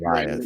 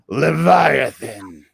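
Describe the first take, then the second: First: It is said in his normal voice. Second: It is said in a deep growl.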